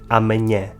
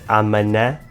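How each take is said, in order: First: The n and h merge into a ny sound. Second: The h is silent, leaving a plain n. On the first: The speaker calls it right. "o N e o H juntos formam o som nhe" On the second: The speaker calls it wrong. "achar que o H é mudo e dizer amanhã"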